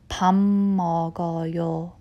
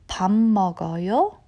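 First: The pitch falls at the end. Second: The pitch rises at the end. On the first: It is a suggestion to eat together. "Let's have a meal" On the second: It asks whether someone is eating. "if your tone goes up at the end"

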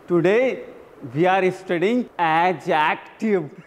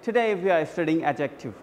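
First: Each word is said slowly and carefully. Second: The words run together smoothly and fluently. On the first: The speaker calls it wrong. "क्योंकि मैं pronunciation बताने की कोशिश कर रहा था" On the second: The speaker calls it right. "now rather you should say"

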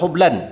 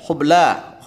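First: The word ends with an added n sound. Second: The word ends on a vowel, no n. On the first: The speaker calls it wrong. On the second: The speaker calls it right.

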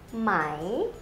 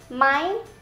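First: The word is said with a rising tone. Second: The word is said with a high tone. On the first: It is the formal, written-style question particle. "This is the rising tone" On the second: It is the everyday conversational question particle. "this is high tone"

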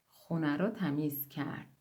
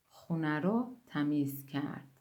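No difference in how they are said.

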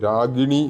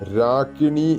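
First: The middle consonant is a voiced g sound. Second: The middle consonant is an unvoiced k sound. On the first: The speaker calls it wrong. "രാഗിണി എന്ന് ജപിക്കരുത്" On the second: The speaker calls it right. "രാകിണി എന്നാണ് എഴുതിയിട്ടുള്ള കായാണ്"

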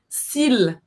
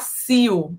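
First: The final L sound is clearly pronounced. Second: The final L sound is left silent. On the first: The speaker calls it right. "o L, ele é pronunciado. ... você vai falar s'il" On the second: The speaker calls it wrong. "Você não vai falar s'il"

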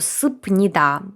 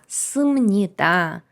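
First: A p sound comes before the n. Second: An m sound comes before the n. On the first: The speaker calls it wrong. "але ні" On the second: The speaker calls it right. "в нас буде імніда, симніда"

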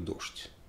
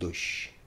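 First: The word has the speaker's own everyday pronunciation. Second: The word has an old-fashioned, refined pronunciation. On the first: This is how an ordinary speaker says it. "Я говорю «дождь»" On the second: This is how cultured intellectuals say it. "интеллигентные люди говорят «дождь»"

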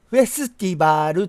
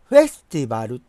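First: The 'su' vowel is clearly pronounced. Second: The 'su' vowel is nearly dropped. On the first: The speaker calls it wrong. "フェスティバルと言い過ぎなんですね" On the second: The speaker calls it right. "スとかいうのはないぐらいの音でいい"

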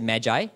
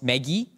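First: It sounds different from the name Maggie. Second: It sounds like the name Maggie. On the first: "I like to pronounce it Magi, sounds less easily confused with Maggie Noodles" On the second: "the M-A-G-I may be pronounced Maggie, like Maggie Mee"

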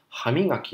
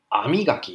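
First: The word begins with an h sound. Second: The word begins with a vowel, no h.

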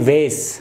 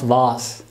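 First: The vowel sounds like 'ay', an American pronunciation. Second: The vowel sounds like 'ah', a British pronunciation. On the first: "वो कहते हैं वेस" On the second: "British they pronounce वास"

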